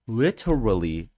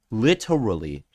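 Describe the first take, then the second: No difference in how they are said.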